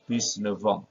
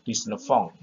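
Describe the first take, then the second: First: The end of neuf is a voiced V sound. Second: The end of neuf is a voiceless F sound. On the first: The speaker calls it right. "tapi dia akan berubah menjadi V" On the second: The speaker calls it wrong.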